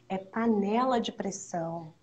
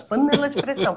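First: The words are articulated clearly and distinctly. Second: The words are slurred and hard to make out. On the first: The speaker calls it right. "Pronuncia direito" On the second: The speaker calls it wrong. "ninguém tá entendendo qual é a promoção"

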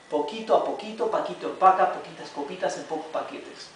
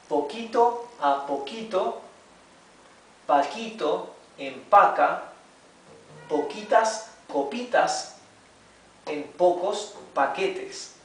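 First: It is read at normal speed. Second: It is read slowly.

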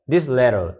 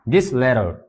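Both takes have the same delivery.

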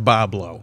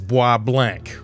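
First: The name is said as two syllables, 'Boblo'. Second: The name is said the French way, 'bwah blahnk'. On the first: The speaker calls it right. "No, that's pronounced Boblo" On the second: The speaker calls it wrong. "you'd think that that was bois blanc"

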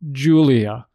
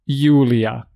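First: The name starts with a 'j' sound as in jam. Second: The name starts with a 'y' sound as in yoga. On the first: The speaker calls it wrong. "It is not Julia" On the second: The speaker calls it right. "It is j"

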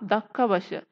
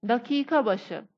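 First: The first word is said in a shortened form. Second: The first word is said in its full form.

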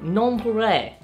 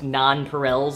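First: The word is said in a French style. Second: The word is said in an English style. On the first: The speaker calls it wrong. "I took French, and I would call them, like, non-Pirel" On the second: The speaker calls it right. "these are pronounced non-Pirels, apparently"

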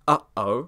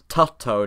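First: The breaks are made with glottal stops. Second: The breaks are made with alveolar t sounds. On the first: The speaker calls it right. "words which generally use glottal stops in English" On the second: The speaker calls it wrong. "you can't replace those glottal stops with alveolar ones. Tutto doesn't make much sense"

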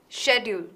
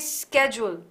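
First: It is said the Indian way. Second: It is said the American way. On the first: "In India, we tend to say schedule" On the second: "Americans say schedule"

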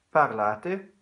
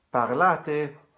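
No difference in how they are said.

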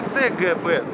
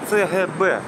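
First: The letters are read in the standard, non-local way. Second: The letters are read in the local city way. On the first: The speaker is not from the city. The speaker calls it wrong. "говорите не ЦГБ" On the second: The speaker is a local. The speaker calls it right. "сразу же люди понимают, кто ты, то есть местный"

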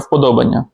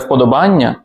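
First: The stress falls on the syllable 'do'. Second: The stress falls on the syllable 'ban'. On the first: The speaker calls it right. "а вподобання" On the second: The speaker calls it wrong. "Не вподобання, як часто кажуть"

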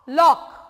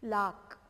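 First: The vowel is a rounded 'aw' sound. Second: The vowel is an open unrounded 'aa' sound. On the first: The speaker calls it right. "ल ऑक लॉक" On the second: The speaker calls it wrong. "ऑक आक नहीं, लाक राक wrong"

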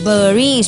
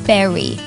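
First: It is said with a Thai-style pronunciation. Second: It is said with an English pronunciation. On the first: The speaker calls it wrong. "ขนาดดิฉันเองเนี่ยก็พูดเบอร์รี่นะคะ" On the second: The speaker calls it right. "แต่ว่าจริงๆแล้วเนี่ยจะออกเสียงเป็น"

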